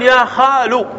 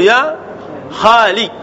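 First: خال ending in u after the l; damma ending. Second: خالي cut after the l, ending in i; kasra ending. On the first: Teacher shows the non-waiting form, خال ending in lu. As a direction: say خال as khalu, without the d. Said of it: "بناء على الضم". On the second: Teacher shows the awaited-letter form, خالي ending in li. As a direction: drop the final d, ending خالي on li. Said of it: "بالكسر". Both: Shown as a demonstration.

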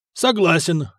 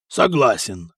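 First: Sigurd. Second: Low-voiced gruff agreement; deep, brief assent from a warrior; Hakon. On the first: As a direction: echo the assent in a lighter pitch. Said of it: "вторил Сигурд". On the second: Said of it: "сказал Хакон". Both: A narrator's reading.

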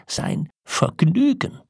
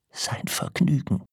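First: Slow, soaring, incredulous echo; outraged disbelief. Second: Breathy, half-whispered echo; stunned disbelief. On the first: Old man repeats his wife's word, rising in outrage. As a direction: draw it out, climbing high in outrage. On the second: Old man echoes his wife's word, stunned whisper. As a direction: repeat it under your breath, aghast. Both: A narrator's reading.

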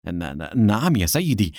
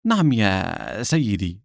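First: Stammering, hesitant assent; unsure, stuttered answer to a boss; flustered. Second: Slow, drawn-out assent; unhurried, pleasant reply; smiling. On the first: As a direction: stumble over the first word in confusion. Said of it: "أجابه جوزيف بارتباك". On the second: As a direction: answer slowly with a smile. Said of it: "ابتسمت منى وقالت". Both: A narrator's reading.

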